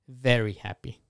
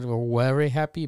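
First: 'Very' begins with a v sound. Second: 'Very' begins with a w sound. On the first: The speaker calls it right. "but very happy" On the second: The speaker calls it wrong. "Not very happy"

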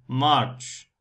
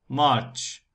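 No difference in how they are said.

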